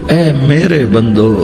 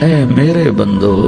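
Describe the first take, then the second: The two takes are said the same way.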